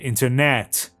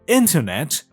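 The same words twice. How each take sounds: First: The stress falls on a later syllable. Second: The stress falls on the first syllable. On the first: The speaker calls it wrong. "شما نگید اینترنت" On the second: The speaker calls it right. "یک نیتیو اسپیکر میگه اینترنت"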